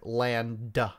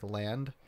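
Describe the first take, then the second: First: The consonants are loud and heavily overarticulated. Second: The consonants are said normally, without exaggeration.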